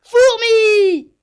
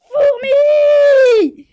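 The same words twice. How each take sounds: First: Shout. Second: Even louder, higher yell; bigger shout. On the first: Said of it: "il lui crie". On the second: Djibril, exasperated, yells at the ant even louder. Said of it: "il s'écrie". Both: Acted.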